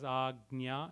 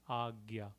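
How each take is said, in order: First: An n sound comes before the y. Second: No n sound comes before the y. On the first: This is the Sanskrit pronunciation. "in Sanskrit, we would pronounce it as agnya" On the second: This is the Hindi pronunciation. "in Hindi or in most of the North Indian languages, we could just make it as A G Y A"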